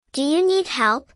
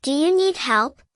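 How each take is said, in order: Both takes have the same delivery.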